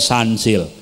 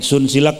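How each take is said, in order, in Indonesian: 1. Diucapkan dengan cara Inggris, dengan 'a'. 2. Diucapkan huruf demi huruf, sesuai ejaannya.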